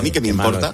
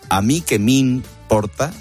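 First: The phrase is said quickly. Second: The phrase is said at a slower pace.

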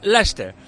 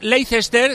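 First: The name is said with its English sounds. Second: The name is read with Spanish spelling sounds.

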